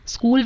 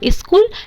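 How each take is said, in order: First: It is said with standard English pronunciation. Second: It is said with mother-tongue-influenced pronunciation.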